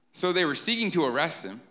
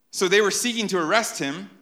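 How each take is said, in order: First: Said in the usual way. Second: "they" stressed, louder; emphatic reading. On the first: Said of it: "And then, like". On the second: Shown as a demonstration. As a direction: read it boldly, punching "they". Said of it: "Isn't that ironic?".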